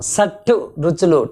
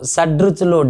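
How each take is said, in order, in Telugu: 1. మధ్య హల్లు అఘోష 't' శబ్దం. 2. మధ్య హల్లు ఘోష 'd' శబ్దం. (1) "టా పలకము" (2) "డా పలుకుతాం"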